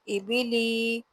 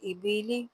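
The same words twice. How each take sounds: First: The vowels are drawn out and heavy. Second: The vowels are short and said softly. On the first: The speaker calls it wrong. "इसको हमने इबिली इस तरह नहीं पढ़ना" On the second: The speaker calls it right. "हमने इसको नरमी से अदा करना है।"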